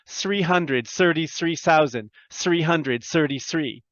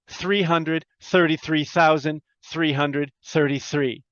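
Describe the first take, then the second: First: The 'th' sounds are replaced with an 's' sound. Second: The 'th' sounds are made with the tongue. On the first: The speaker calls it wrong. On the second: The speaker calls it right.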